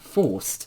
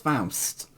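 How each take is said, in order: First: It is said like the English word 'forced'. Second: It is said like 'Faust', rhyming with 'house'. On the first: The speaker calls it wrong. "it's not Forced" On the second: The speaker calls it right. "it's Faust"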